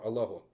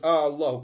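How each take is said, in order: First: The first vowel is short. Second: The first vowel is drawn out long. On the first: It is a plain statement praising God. The speaker calls it right. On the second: It turns into a doubting question. The speaker calls it wrong.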